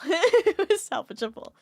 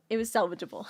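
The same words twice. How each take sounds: First: Laughing repeat. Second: Said in the usual way. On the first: Real, not acted.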